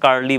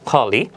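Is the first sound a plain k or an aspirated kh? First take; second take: plain; aspirated. First: It starts with a plain k sound. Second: It starts with an aspirated kh sound. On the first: The speaker calls it wrong. "আমরা কার্লি বলি" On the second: The speaker calls it right. "শুদ্ধ উচ্চারণ হবে খলি"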